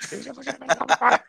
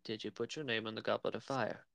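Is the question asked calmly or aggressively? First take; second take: aggressively; calmly. First: The question is asked aggressively and forcefully. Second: The question is asked calmly and quietly.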